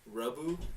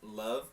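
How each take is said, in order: First: It is said with a Japanese-English accent. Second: It is said with a plain English accent.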